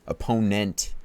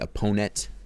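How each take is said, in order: First: The word is said slowly with every syllable clear. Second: The word is said fast with syllables run together. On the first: The speaker calls it right. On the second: The speaker calls it wrong.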